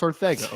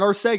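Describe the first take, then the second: First: The middle consonant is a th sound. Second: The middle consonant is an s sound. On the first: The speaker calls it right. "it's pronounced Arthega" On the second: The speaker calls it wrong. "it's not Arcega"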